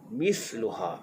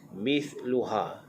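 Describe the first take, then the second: First: The middle consonant is an s sound. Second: The middle consonant is a soft th sound. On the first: The speaker calls it wrong. "jangan baca misluha, itu dah jadi sin" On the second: The speaker calls it right. "sa pastikan jangan terlampau berangin, sebab sa ini lembut sahaja"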